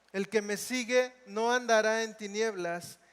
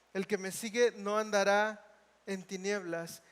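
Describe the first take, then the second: The two takes are said the same way.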